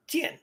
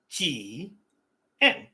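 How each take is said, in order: First: Jian run together, quick and high; joined-up pronunciation. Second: Ji-en slowly split into two syllables; broken-down pronunciation. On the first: Showing viewers how the broken-down word joins, quick correct pronunciation. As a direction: blend Ji and en into one short Jian. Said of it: "not a difficult word to pronounce". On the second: Showing viewers the word is not difficult, syllable by syllable. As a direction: sound out Ji-en, a long Ji, pause, then en. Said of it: "if you break it down". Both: Shown as a demonstration.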